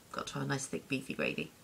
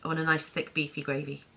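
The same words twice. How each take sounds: First: Softer, quicker repeat under the breath; quiet aside. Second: Said in the usual way. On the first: Real, not acted. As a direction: toss it off softly and fast, like a private vow. Repeating the gravy wish.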